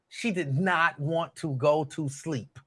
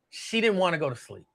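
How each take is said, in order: First: Did not spelled out slowly and firmly; stress on did not. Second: Said in the usual way. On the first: Retold or imitated. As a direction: lean on did not, unhurried. Repeats the line, slower the second time.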